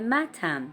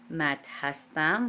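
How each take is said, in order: First: Only a short '-am' is joined to the name. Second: The full form 'hastam' is said after the name. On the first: This is the everyday spoken form. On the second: This is the formal written form.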